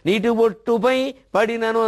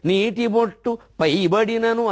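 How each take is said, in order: First: The break falls after 'pai', joined to the noun. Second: The break falls before 'pai', joined to the verb. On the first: The oil falls onto the drop of water. The speaker calls it wrong. "అని పొరపాటు చదివామనుకోండి" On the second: A drop of water falls onto the boiling oil. The speaker calls it right. "అని చదవాలి"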